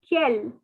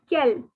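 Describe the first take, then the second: The two takes are said the same way.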